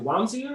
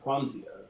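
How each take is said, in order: First: The name begins without a K sound. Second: The name begins with a K sound.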